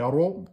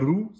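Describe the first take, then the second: First: The r is emphatic with an open o vowel. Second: The r is thin with a close u vowel. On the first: The speaker calls it right. "damma emphatique" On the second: The speaker calls it wrong. "c'est pas rou"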